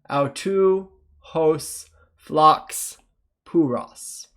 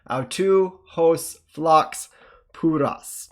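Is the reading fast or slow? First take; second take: slow; fast. First: It is read slowly. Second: It is read a little faster. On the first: "let's start with a slow reading" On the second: "a little bit faster"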